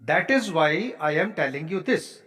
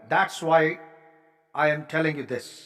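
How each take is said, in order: First: That is is said as two full words. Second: That is is contracted into one syllable. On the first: The speaker calls it wrong. "आपने ऐसे नहीं बोलना" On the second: The speaker calls it right. "आपने बोलना है"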